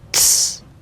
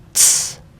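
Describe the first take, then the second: First: The t and s blend into one sound. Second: The t and s blend into one sound.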